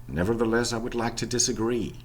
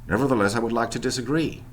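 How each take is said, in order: No difference in how they are said.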